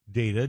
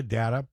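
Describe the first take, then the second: First: DATA said "DAY-tuh"; long-A data. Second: DATA said "DAT-uh"; short-A data. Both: Shown as a demonstration. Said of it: "whatever you wanna call 'em".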